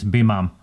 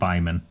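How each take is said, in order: First: The first syllable sounds like 'bee'. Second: The first syllable sounds like 'by'. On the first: The speaker calls it right. "it's Bimam, actually" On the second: The speaker calls it wrong. "not Byman"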